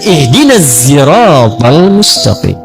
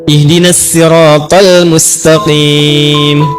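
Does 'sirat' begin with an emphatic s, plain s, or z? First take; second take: z; plain s. First: Sirat begins with a buzzing z sound. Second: Sirat begins with a plain, light s sound. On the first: "Maka turun riwayat pakai zai" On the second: "Turun riwayat pakai sin"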